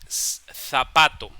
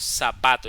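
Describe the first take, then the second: First: The first sound is a lisped th sound. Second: The first sound is a plain s sound. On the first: The speaker calls it right. "no pronunciamos la Z española como debe de pronunciarse" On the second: The speaker calls it wrong. "sino decimos zapato"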